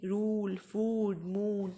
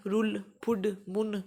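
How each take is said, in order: First: रूल, फूड, मून with a long drawn-out oo; corrected demo of रूल, फूड, मून, vowels held long. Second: रूल, फूड, मून with the oo cut short to u; mispronounced demo of रूल, फूड, मून with short vowels; wrong short vowel. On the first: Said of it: "नहीं". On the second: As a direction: say रूल, फूड, मून as rul, phud, mun. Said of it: "हम ऐसा तो नहीं बोलेंगे". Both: Shown as a demonstration.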